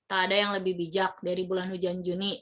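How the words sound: It is read in a flat, monotone pitch.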